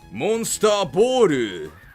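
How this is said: It is said in a put-on Japanese-American accent. "I have to do the fake Japanese American"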